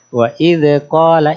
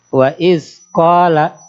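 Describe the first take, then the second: First: An extra vowel sound follows the d. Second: A hissing s sound follows the d. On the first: "ketambahan beranak hurufnya, anaknya the" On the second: "disertai dengan unsur desis"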